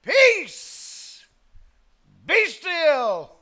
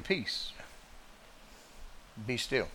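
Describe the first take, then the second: First: High, loud commanding cry; a ringing, forceful decree to the sea; mighty command. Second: Soft, gentle low command; a quiet, mild rebuke; mild calm command. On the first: Acted. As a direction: command the storm with full force. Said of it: "commanded that which he had created". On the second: Retold or imitated. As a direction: say it softly, as other preachers do. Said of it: "to say he just stepped up and said".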